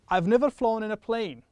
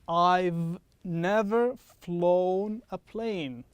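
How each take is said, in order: First: The sentence is spoken at a quick pace. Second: The sentence is spoken at a slow pace. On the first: "I'm going to say this quickly" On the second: "I'm going to say this slower"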